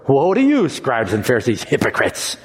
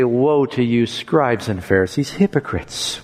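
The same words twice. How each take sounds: First: It is said harshly, without tears in the voice. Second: It is said sadly, with tears in the voice.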